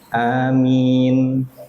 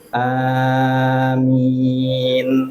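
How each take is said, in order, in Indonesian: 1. Kedua vokal pendek. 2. Kedua vokal dipanjangkan. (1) "Dua harokat, dua harokat" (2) "Panjang semua ya. A-nya panjang, min-nya panjang"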